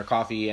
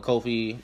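First: Said in the usual way. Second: Kofi with a long O; first vowel as in "go"; alternate pronunciation. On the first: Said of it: "I'm saying coffee". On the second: Real, not acted. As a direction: say Kofi as KOH-fee. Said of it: "or Coffee and".

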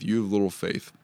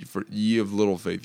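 First: Said in the usual way. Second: Put-on "ye" said as old-style yee; archaic ye. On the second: Shown as a demonstration. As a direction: read the archaic "ye" with a long ee sound.

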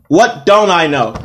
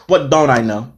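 First: "What don't I know?" slower, each word hit harder; emphatic repeat. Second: Said in the usual way. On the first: Retold or imitated. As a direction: punch WHAT and DON'T, stretching the question. Same question repeated for emphasis.

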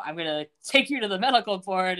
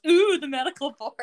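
First: Said in the usual way. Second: Sing-song mock, a bit higher and louder; mocking echo. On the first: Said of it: "and he's like". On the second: Michael mocking Levin's threat in a sing-song way. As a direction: repeat the threat back to mock it. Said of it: "And Michael goes".

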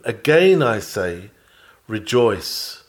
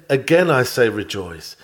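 First: Slow, deliberate weight on Again; earnest urging. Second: Said in the usual way. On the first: Retold or imitated. Apostle pressing the precept on the church, slow and earnest. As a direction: lean into Again slowly and earnestly. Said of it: "the more earnestly press it upon you". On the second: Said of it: "So he said".

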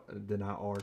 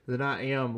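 First: Trailing, softer "than I are"; slip of the tongue. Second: Said in the usual way. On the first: Real, not acted. Tongue slip while talking about joggers, "are" said softly. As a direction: let "are" slip out as a mistake. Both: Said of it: "Jesus Christ".

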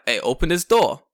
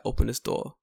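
First: Loud, higher London demand; shouted London street confrontation. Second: Firm London voice at normal volume; controlled London street demand. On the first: Man confronting panicking kids in the car, loud London voice. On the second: Man confronting kids at their car, firm London voice. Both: Acted. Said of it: "Let's get my London voice ready".

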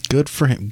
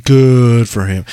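First: Said in the usual way. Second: Mock emphatic. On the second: Repeated, exaggerated second take.

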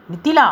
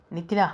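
First: A loud, high, furious roar of the name Nithila; roaring her name. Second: Pleading softly. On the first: Stung by her accusation, he roars her name. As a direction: bellow Nithila in rage. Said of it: "என்று கர்ஜித்தவனின்". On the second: After hurting her, he gently pleads her name. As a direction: coax her name, almost begging. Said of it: "கெஞ்சாத குறையாக சொன்னான்". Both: Acted.

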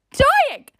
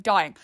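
First: High, loud squeal on "Dying"; mortified squeal. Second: Said in the usual way. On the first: Retold or imitated. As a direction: squeal "Dying" loudly in comic agony. Retold mortified reaction, repeated louder.

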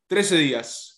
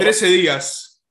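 First: Said in the usual way. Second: Trece días, stretched out slowly, higher and louder on Trece; slow emphatic correction. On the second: Real, not acted. Correcting his friends on the date, Trece días slow and pressed. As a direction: drag out Trece días to set them straight.

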